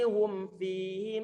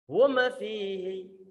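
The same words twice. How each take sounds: First: The m is said plainly without rounding. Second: The m is released with an echoing bounce. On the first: The speaker calls it right. "Memnya sudah dalam kondisi normal" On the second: The speaker calls it wrong. "Hati-hati mengkolkolahkan suara mim"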